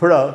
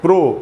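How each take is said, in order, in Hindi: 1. इस सिलेबल में छोटा, कमज़ोर श्वा स्वर है। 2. इस सिलेबल में पूरा, गोल 'o' स्वर है। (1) "प्र आधा अ का साउंड है" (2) "इसको हम लोग अक्सर ऐसे पढ़ते हैं प्रो"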